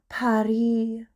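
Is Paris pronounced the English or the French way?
French. It is pronounced the French way, silent final s. This is what people living there call it. The speaker calls it right. "We call it Paris"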